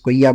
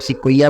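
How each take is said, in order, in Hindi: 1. शब्द सीधे एक 'sk' क्लस्टर से शुरू होता है। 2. शब्द की शुरुआत एक पूरे 'si' अक्षर से होती है। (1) "कुछ लोग स्कोइया बोलते हैं" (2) "इसको कुछ लोग सिक्वोइया बोलते हैं"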